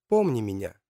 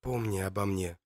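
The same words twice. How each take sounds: First: Echoing voice heard in the mind; like a faraway voice in his head; distant inner voice. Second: Soft hushed whisper. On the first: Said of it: "слышит голос Матильды". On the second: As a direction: breathe it out barely voiced. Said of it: "шепчет он". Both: Acted.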